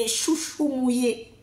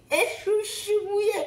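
First: Said in the usual way. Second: High, broken "chouchou mouillé" through laughter and tears; laughing and crying. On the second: Real, not acted. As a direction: let the joy break your voice. Témoignage émouvant. (rire mêlé de larmes, voix qui se brise)

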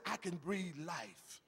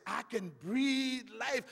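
First: Much softer, intimate; quiet reassurance; soft divine promise. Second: Slow, half-sung line; sung, melodic sermon refrain; sung promise. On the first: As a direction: drop it to near-hush. God's words, quoted softly. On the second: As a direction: sing it out slowly. God's words, sung. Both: Acted.

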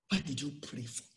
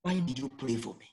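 First: Quiet, reflective repeat; softly repeated. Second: Said in the usual way. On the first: Real, not acted. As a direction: echo the question much softer. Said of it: "repeats the question softly". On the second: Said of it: "The question he was asking himself".

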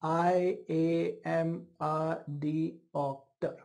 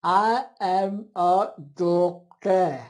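First: Very slow, syllable by syllable, softer; imitating a cerebellar patient; scanning speech demo. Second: Very slow, strained and louder I am a doctor; imitating a patient with spastic speech; spastic dysarthria demo. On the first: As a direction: space out I am a doctor in separate beats. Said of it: "So how will this patient talk?". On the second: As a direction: force each word of I am a doctor out stiffly and slowly. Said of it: "I'll talk like this". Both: Shown as a demonstration.

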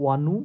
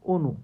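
First: অনু opening on an open "aw", "awnu"; wrong pronunciation. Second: অনু opening on a closed o, "onu"; standard pronunciation. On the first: Teacher shows what we don't say, অনু mispronounced as "awnu". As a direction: misread অনু with a wide open first vowel, "aw-nu". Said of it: "আমরা কিন্তু এটা বলি না". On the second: Teacher gives what we do say, অনু as "onu". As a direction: say অনু with a rounded "o" as in "go". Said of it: "আমরা বলি কি". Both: Shown as a demonstration.

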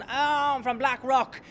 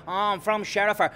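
First: Slow mock posh south Dublin accent. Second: Mocking Dublin accent for Sherifer; mock accent switch. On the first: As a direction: drawl it like a posh Blackrock lad. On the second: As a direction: ape his shifting Dublin accent. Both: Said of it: "change the accent wanker".

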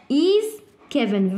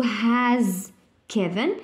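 First: "Is" stressed and slow, the right verb; teacher stressing the verb to be; correct form, stressed. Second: Said in the usual way. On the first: Shown as a demonstration. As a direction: lean on "Is" to show the correct answer. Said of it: "Verb to be". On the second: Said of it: "ما نقدرش نقولوا".

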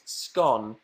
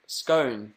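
First: Scone? said with a short o, like gone, in mock disbelief; Scone? short o, questioning; scone rhymes with gone. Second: Scone said with a long oh, skohn; scone pronounced like cone; scone rhymes with cone. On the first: Mocking the other side of the scone debate, scone like gone. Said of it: "I say scone". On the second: Answering fans on the scone debate, scone like cone. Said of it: "Scone or scone?". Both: Shown as a demonstration.

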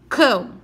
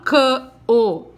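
First: "cão" said as a single syllable, all together; right way, one syllable. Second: "cã-o" broken into two syllables, louder; wrong way, split apart. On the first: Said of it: "eu falo cão". ("cão" numa sílaba só, tudo junto) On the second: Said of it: "Eu não falo cã-o, não". ("cã-o" separado em duas sílabas, do jeito errado) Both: Shown as a demonstration.

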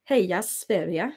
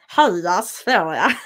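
First: Cheering in a Swedish accent; a Swedish fan chanting. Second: Slow, exaggerated Stockholm Swedish on Halla Sverige; exaggerated Stockholm accent; mock Stockholm accent. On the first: Shown as a demonstration. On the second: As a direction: lampoon a Stockholm accent, drawn out and laughing. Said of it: "as the Stockholms would say".

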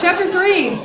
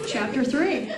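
First: Higher, louder, through a laugh. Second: Said in the usual way. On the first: Real, not acted. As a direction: announce it while cracking up.

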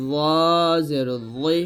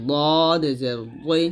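First: ল জের জি, ল as thick "zaw" from upper-teeth edge; tongue-tip heavy za. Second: ল জের জি, thick ল from tongue side at molars; tongue-side dad. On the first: Teacher contrasts two heavy letters, ল at the tooth edge. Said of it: "জিব্বাটা উপরে দাঁতের আগায়". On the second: Teacher gives the second letter, molar-pressed ল. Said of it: "মাড়ি দাঁতের গোড়ায় লাগবে". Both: Shown as a demonstration.

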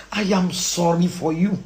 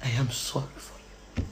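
First: Slow, low delivery; measured and lowered; pitying statement. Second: Very soft, low repeat; almost murmur it, trailing off; quiet, deep and fading; hushed pity. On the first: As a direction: spell it out slowly. Slow statement before hushed repeat. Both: Real, not acted.

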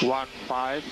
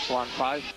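No difference in how they are said.

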